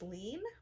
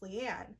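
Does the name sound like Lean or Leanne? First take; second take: Lean; Leanne. First: The name is said as Lean. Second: The name is said as Leanne. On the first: The speaker calls it wrong. "I always pronounced it as Lean" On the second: The speaker calls it right. "apparently it's supposed to be pronounced Leanne"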